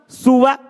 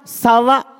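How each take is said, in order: First: The first vowel is a u sound. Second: The first vowel is an a sound. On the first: "Sinnya ini bisa juga di dhamma" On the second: "Bisa juga di fathah"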